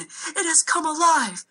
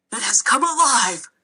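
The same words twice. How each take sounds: First: High, slow panicked scream. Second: Louder shocked exclamation; mild gasp of shock. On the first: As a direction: servant screams that the dragon lives. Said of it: "I heard the servant screaming". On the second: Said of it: "I heard him gasp". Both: A narrator's reading.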